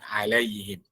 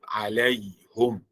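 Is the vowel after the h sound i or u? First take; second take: i; u. First: The vowel after h is i. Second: The vowel after h is u.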